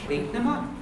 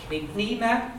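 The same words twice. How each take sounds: First: "Creepnema" with "Creep" stressed, "nema" slid over; stress on first part. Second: "Creepnema" with the "nema" part stressed and held; second part wrongly stressed. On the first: Teacher modelling it, "Creepnema" stressed on "Creep". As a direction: hit "Creep" and glide lightly through "nema". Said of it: "You're gonna say". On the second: Teacher showing the mistake, "Creepnema" stressed on "nema". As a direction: lean on "nema" instead of sliding over it. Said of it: "You're not gonna say". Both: Shown as a demonstration.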